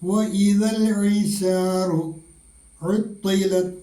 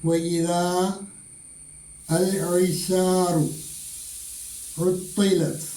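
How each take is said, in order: First: Idha and al are joined, long vowel dropped. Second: Idha and al are said separately, long vowel kept.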